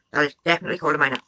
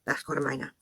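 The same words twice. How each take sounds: First: Rapid insistence. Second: Dropped low. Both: Real, not acted. Commentator rebuts, repeats point.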